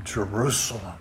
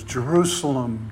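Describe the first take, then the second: First: Second Jerusalem falls away softer and lower; quiet lament. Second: Said in the usual way. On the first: Retold or imitated. Preacher echoing Jesus' lament over the city, softer mournful second Jerusalem. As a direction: let the repeated Jerusalem sink into a mournful hush. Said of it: "he declares a lament". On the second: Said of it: "the double emphasis".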